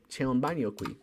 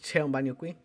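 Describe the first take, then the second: First: The voice falls at the end, a statement. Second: The voice rises at the end, a question.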